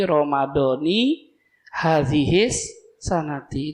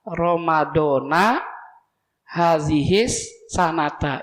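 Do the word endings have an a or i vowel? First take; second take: i; a. First: The word endings carry an i vowel. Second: The word endings carry an a vowel. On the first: The words are in a possessive construction. "Kalau mudhof ilaih majrur lagi kasroh lagi" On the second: The words follow a different grammatical analysis. "fathah ... dua-duanya fathah"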